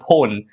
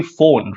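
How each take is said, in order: First: "phone" with a hard P, like "pone"; mispronounced phone. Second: "phone" begun with an F, as "fone"; correct F sound. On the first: Teacher demonstrating the mother-tongue slip, "phone" with a P. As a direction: open "phone" on a puffed P instead of F. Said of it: "We don't say". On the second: Teacher correcting the accent slip, "phone" with an F sound. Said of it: "it's actually phone". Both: Shown as a demonstration.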